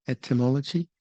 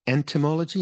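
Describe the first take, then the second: First: "Etymology" asked carefully, rising at the end; clear etymology. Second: "Entomology" with a clear n sounded before the t; "Entomology" said crisply as the look-alike word; contrasting word. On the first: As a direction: spell out "Etymology" sound by sound, no n before the t. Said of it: "the study of the origin of words". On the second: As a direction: set "Entomology" apart from etymology by stressing the n. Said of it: "Study of insects". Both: Shown as a demonstration.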